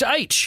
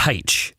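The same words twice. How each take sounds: First: "H" said as AITCH, no h sound; letter "H" with no breath in front; standard aitch. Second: "H" said as HAITCH; letter "H" with an h in front; wrong-style haitch. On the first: Shown as a demonstration. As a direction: start "H" on the vowel, like "age". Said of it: "it's H". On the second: Retold or imitated. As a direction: sound an aspirated h at the start of "H". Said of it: "which it's not".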